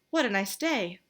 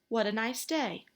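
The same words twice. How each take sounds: First: It is said breathlessly, as if frightened. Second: It is said in a plain, ordinary voice.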